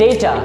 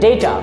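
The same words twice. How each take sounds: No difference in how they are said.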